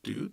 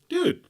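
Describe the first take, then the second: First: It sounds nervous and scared. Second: It sounds like a friendly, casual greeting.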